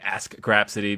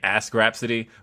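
First: The K sound is clearly pronounced. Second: The K sound is dropped in fast speech. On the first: The speaker calls it right. "I keep putting emphasis on the K" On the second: The speaker calls it wrong. "people think I'm saying Ask Grapsity when I say it too fast"

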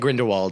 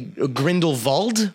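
First: The name is said with an American pronunciation. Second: The name is said with its original pronunciation. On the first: "all the Americans in the film say Grindelwald" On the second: "if you want to pronounce it properly, it would most likely be Grindelwald"

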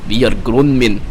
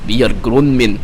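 First: It is said in a put-on Russian accent. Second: The same.

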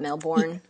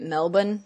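First: The last syllable is fully pronounced as spelt. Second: The last syllable is short and reduced. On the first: This is how visitors from overseas say the name. The speaker calls it wrong. "not Melbourne" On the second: This is how locals say the name. The speaker calls it right. "That's how you say it"

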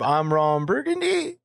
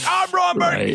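First: It rises at the end like a question. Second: It is shouted loudly, like yelling.

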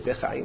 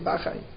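First: The word begins with the syllable 'be'. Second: The word begins with the syllable 'ba'. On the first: The speaker calls it wrong. "We don't say bechayim" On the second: The speaker calls it right. "we say bachayim"

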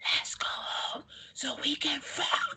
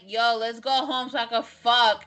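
First: It is said in a whisper. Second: It is said loudly.

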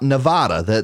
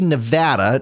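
First: It is said the way outsiders say it. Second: It is said the way locals say it. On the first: The speaker sounds like a visitor. The speaker calls it wrong. "not Nevada" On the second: The speaker sounds like a resident. The speaker calls it right. "You say Nevada"

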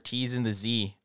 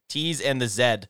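First: It is said in a non-Canadian way. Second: It is said in a Canadian way.

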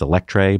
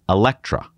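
First: The word ends with a 'tray' sound. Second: The word ends with a 'truh' sound. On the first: The speaker calls it wrong. "it looks like it's Electre" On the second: The speaker calls it right. "that's how they pronounce it"

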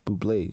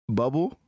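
First: The name ends with an 'ay' vowel sound. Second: The name sounds like the plain word bubble. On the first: "one of them fancy pronunciations" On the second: "I don't know if that's how you say it"

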